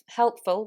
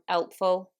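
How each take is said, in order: First: The word begins with an h sound. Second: The word begins without an h sound.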